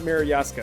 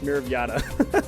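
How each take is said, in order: First: The name ends in a 'ska' sound. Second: The name ends in a 'ta' sound. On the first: The speaker calls it wrong. "I was pronouncing it incorrectly. It's not Mirror Yaska" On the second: The speaker calls it right. "it's Mirror of Yata"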